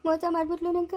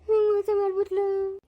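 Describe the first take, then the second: First: Said in the usual way. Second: Higher, slow hammed-up wail; hammed-up sobbing lament; mock crying wail. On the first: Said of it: "ಅಯ್ಯೋ ಅಳ್ಬೇಡ". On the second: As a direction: wail it out like a jilted husband, overdone. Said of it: "ಅಯ್ಯೋ ಅಳ್ಬೇಡ ಹೋಗಪ್ಪ".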